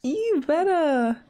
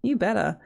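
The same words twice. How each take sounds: First: Slow, stretched "You better"; "You better" said slowly, savoring it; drawn-out cheer. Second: Said in the usual way. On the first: Real, not acted. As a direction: drag out "You better" admiringly. Cheering the sims on.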